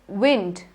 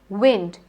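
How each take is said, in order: Both takes have the same delivery.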